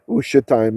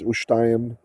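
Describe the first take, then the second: First: A short vowel is heard after the sh sound. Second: The vowel after the sh sound is dropped. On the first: "it's a vocal schwa, should be ushetayim" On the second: "Israeli pronunciations ushtayim... It often gets softened down"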